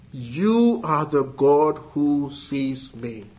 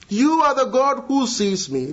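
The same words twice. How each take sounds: First: Slow and lower, weighing each word of the God who sees me; slow, pondering. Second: Higher, ringing declaration with You stressed; proclaimed. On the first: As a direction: let it sink in slowly. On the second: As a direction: proclaim it to the congregation. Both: Acted. Repeats Hagar's confession twice.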